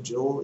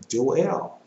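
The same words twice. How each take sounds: First: "Joel" said softly as Jole; Joel as one syllable. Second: "Joel" said Jo-EL, split in two; Joel as two syllables. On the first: Preacher concedes the common way, "Joel" as Jole. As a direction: say "Joel" in one beat, like coal. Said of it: "So we pronounce it". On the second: Preacher reads it as spelled, "Joel" as Jo-EL. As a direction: say "Joel" as jo-ELL, second syllable stressed. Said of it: "But I don't see that". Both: Shown as a demonstration.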